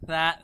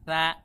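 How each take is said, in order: Both takes have the same delivery.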